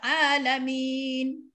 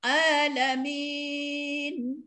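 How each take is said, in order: First: The long vowel is held for two counts. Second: The long vowel is held for four counts. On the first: "kalau dua harakat alamin" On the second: "Empat harakat alamin"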